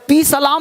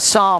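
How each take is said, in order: First: The word begins with a pronounced p sound. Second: The word begins without any p sound. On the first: The speaker calls it wrong. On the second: The speaker calls it right.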